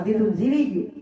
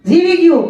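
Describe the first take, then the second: First: Said in the usual way. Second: Higher, louder, with a laugh; joyful exclaim. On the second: A narrator's reading. Preacher to listeners, rejoicing the cub survived, excited laughing. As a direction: burst out happily that it lived.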